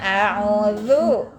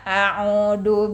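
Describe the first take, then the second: First: The middle consonant is a 'z'-like sound. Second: The middle consonant is a plain 'd' sound. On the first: It means 'I seek refuge'. The speaker calls it right. "Harusnya a'udzu" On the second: It means 'I return'. The speaker calls it wrong. "kalau ibu baca ta'awudnya salah"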